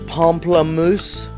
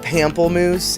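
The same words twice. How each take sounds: First: The word has a French pronunciation. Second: The word has an English-style pronunciation. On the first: The speaker calls it right. "That's how you actually are supposed to say it" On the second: The speaker calls it wrong. "I say it very wrong on purpose"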